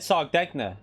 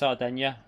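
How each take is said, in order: First: The G in the middle is pronounced. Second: The G in the middle is silent. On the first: The speaker calls it wrong. "I said Sardegna, Sardegna. That sounds right to me, but apparently that's not how you'd pronounce it in Italy" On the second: The speaker calls it right. "Probably a silent G, so it's Sardinia"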